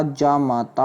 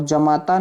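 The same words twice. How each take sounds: First: "जामाता" with drawn-out jaa; long-vowel "जामाता". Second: "जमाता" with short first a; short-vowel "जमाता". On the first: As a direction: open the first syllable of जामाता long and slow. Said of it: "होता है". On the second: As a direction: start जमाता on a quick ja. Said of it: "नहीं होता". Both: Shown as a demonstration.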